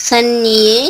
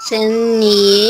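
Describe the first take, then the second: The two takes are said the same way.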